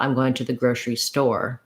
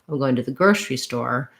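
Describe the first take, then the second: First: The stress falls on the word store. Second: The stress falls on the word grocery. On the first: The speaker calls it wrong. "not ... if I'm stressing store" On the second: The speaker calls it right. "you actually have to stress grocery and less stress on store"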